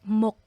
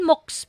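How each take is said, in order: First: Only the first final consonant is sounded. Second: Both final consonants are sounded, ending in s. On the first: The speaker calls it right. "you only need to read the first consonant" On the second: The speaker calls it wrong. "Hindi yan MOOCs po"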